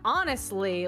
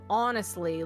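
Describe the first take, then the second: First: The O vowel sounds American. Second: The O vowel sounds Canadian. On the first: The speaker calls it right. "I had to say it more of like a honestly like that" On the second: The speaker calls it wrong. "instead of honestly"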